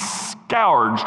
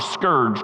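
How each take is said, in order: First: It is said with a southern pronunciation. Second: It is said with a northern pronunciation. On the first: "depending if you're from the south" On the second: "or the north"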